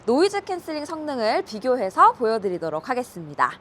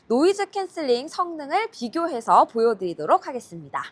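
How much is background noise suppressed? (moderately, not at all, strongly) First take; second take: not at all; strongly. First: Rain and traffic noise are fully audible behind the voice. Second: Background noise is strongly removed; voice may sound muffled. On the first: "현재 모드는 노이즈 캔슬링이 꺼진 상태입니다" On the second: "현재 모드는 노이즈 캔슬링 강한 모드입니다"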